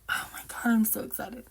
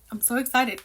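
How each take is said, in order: First: Breathless unvoiced whisper of delight; excited whisper. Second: Said in the usual way. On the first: Real, not acted. Whispering to viewers over grandpa's reunion, thrilled.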